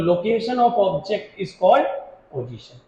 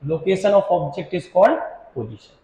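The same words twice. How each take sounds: First: Very slow, word by word, pause before the last word; slow dictation. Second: Very slow and even, in one breath; slow dictation. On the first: Teacher dictating the definition to students, slow and spaced. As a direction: spell it out for notes, slowly. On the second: Teacher repeating the definition for notes, very slow. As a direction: read it out slowly for copying. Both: Shown as a demonstration.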